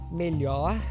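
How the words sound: The final r is an h-like breathy sound. "No Rio de Janeiro se diz melhor, com esse h ou h mais sonoro"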